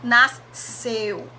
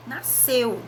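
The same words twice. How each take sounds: First: "nasceu" with both S and C sounded, ss then s; wrong pronunciation. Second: Said in the usual way. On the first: Shown as a demonstration. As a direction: split the sc in "nasceu" into two hissed sounds. (pronúncia errada, "nasceu" com S e C separados) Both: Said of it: "A gente não fala".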